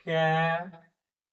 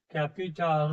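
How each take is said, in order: First: "capital" slowly in three parts, ক্যা ... পি ... টাল; split into syllables. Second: Said in the usual way. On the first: Shown as a demonstration. Teacher showing a three-syllable word, capital broken up slowly. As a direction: pause after each syllable of capital. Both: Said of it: "তিনটে সিলেবেলে ভাঙতে পারবো".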